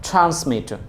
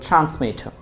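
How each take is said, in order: No difference in how they are said.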